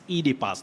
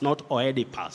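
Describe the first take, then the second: First: The first vowel is a long E sound. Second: The first vowel is not a long E sound. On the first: The speaker calls it right. "the vowel digraph O E, taking the long vowel sound E" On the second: The speaker calls it wrong.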